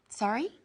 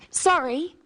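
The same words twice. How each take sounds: First: It asks for repetition, rising at the end. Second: It is an apology, falling at the end.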